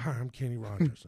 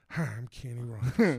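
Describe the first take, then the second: First: A faint hint of [name]; [name] impression. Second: A light [name] voice, easy and friendly; [name] impression. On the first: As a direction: say it again as the singer, barely shifted. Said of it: "'Cause that's what he sounded like". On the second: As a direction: slip lightly into the singer's voice. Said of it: "can you do [name]?".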